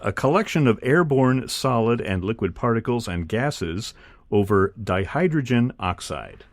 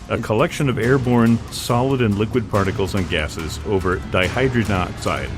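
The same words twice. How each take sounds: First: It is said at a normal speed. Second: It is said very quickly.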